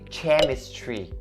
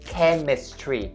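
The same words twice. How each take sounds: First: The word begins with a ch sound. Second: The word begins with a k sound. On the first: The speaker calls it wrong. "you don't say chemistry" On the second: The speaker calls it right. "It has to be the K sound right there"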